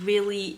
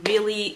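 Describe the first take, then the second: Both takes have the same delivery.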